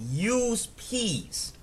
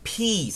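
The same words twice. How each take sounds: First: Slow, careful "Use P's" with crisp P. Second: "P's" repeated higher with a popped P. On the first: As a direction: spell out "P's" slowly so it isn't heard as B's. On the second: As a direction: say "P's" again with a hard P sound. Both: Shown as a demonstration. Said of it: "That might sound like B's".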